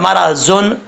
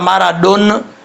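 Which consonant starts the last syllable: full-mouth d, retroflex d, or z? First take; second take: z; retroflex d. First: The last syllable starts with a z sound. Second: The last syllable starts with a retroflex d. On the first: "दोनों गलत हैं" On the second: "दोनों गलत हैं"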